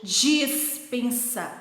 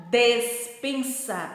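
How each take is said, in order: First: Dispensa drawn out slowly, clear dis sounding dʒis; slow teacher demo, dispensa with I; model word with I. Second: Despensa drawn out slowly, clear des with E; slow teacher demo, Despensa with E; model word with E. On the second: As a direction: stretch Despensa, opening des. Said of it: "Falem comigo em cima". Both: Shown as a demonstration.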